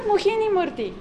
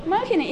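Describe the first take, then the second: First: "Mohini Murthy" with mo-HEE-ni; wrong stress. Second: "Mohini" stressed on a long, high MO; correct stress. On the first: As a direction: demonstrate mistaken "Mohini Murthy", weight on the second syllable. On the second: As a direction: model "Mohini" as MO-hini, peak up front. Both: Shown as a demonstration. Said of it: "It's not Mohini Murthy".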